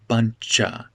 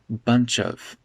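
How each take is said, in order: First: Said quickly, with 'of' reduced to a schwa. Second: Said slower, with 'of' fully pronounced. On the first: "if I speak quickly here, I'll say buncha" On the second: "If I speak a little slower, I'll make it bunch of"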